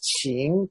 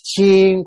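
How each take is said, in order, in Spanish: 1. La palabra lleva el segundo tono. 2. La palabra lleva el cuarto tono. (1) "la primera dinastía es Qin con segundo tono" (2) "la última es Qin con cuarto tono"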